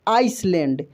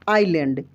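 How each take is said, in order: First: An s sound is said before the l. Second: No s sound is said before the l. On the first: The speaker calls it wrong. "आइसलैंड पढ़ते हैं गलत जो पढ़ेंगे" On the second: The speaker calls it right. "आइलैंड होता है"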